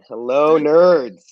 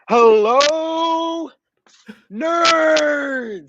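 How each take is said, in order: First: It is said with little enthusiasm. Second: It is said with lots of enthusiasm.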